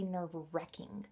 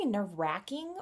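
First: "nerve-wrecking" with a short e as in neck; WRECK pronunciation. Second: "nerve-wracking" with a short a as in cat; RACK pronunciation. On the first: Vlogger offering viewers the other option, "nerve-wrecking" with an e. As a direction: say "nerve-wrecking" with the middle rhyming with deck. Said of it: "or do you say nerve-wrecking". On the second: Vlogger asking viewers which they say, "nerve-wracking" with an a. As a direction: say "nerve-wracking" with the middle rhyming with back. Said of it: "do you guys say nerve-wracking". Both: Shown as a demonstration.

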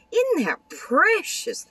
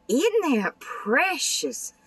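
First: Very high, slow, gushing squeal; Isn't that precious squealed very high and slow; delighted squeal. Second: High, slow, delighted coo; Isn't that precious drawn out high and slow; gushing delight. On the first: Gushing over card. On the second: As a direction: swoon over how precious it is. Gushing over fold card. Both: Real, not acted.

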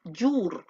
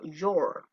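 First: "your" said with OO, as yoor; wrong pronunciation. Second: "your" as yor, low-pitched; pronounced with O. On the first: Teacher explains O and U, wrong "your" as yoor. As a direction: give "your" a tight U vowel. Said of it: "la O y la U no se pronuncia your". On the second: Teacher explains O and U, right "your" with an O. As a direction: drop low and round "your" to an O. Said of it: "se pronuncia como con O". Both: Shown as a demonstration.

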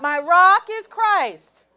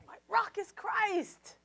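First: Loud, slow, stressing rock; loud declaration. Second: Said in the usual way. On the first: Shown as a demonstration. Preacher modelling the response to the congregation, loud and slow. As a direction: shout it out slowly, leaning on rock. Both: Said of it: "Is your rock Christ or not?".

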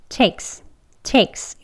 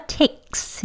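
First: Takes said easily, no throat catch; native-style easy version; relaxed takes. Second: Takes with the throat catch, the way not to do it; breathy stopped takes; wrong version shown; held-breath takes. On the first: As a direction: loose casual takes. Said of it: "그냥 편하게". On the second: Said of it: "이렇게 하지 마시고요". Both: Shown as a demonstration.

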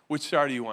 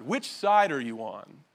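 First: Said in the usual way. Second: Slow, weighty, stress on side; slow emphatic question. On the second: Shown as a demonstration. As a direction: draw out the title question slowly. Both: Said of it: "that's what I called the message".

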